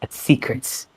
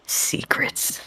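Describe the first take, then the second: First: Said in the usual way. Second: Breathy secretive whisper of Secrets. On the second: Shown as a demonstration. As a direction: hush it to a whisper. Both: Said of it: "whispered repeat".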